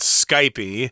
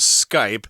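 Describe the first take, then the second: First: The word ends with an added vowel. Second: The word ends without an added vowel. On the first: This is the local way of saying it. "a lot of people here call it Skypey" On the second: This is how most people say it. "everybody else in the world says Skype"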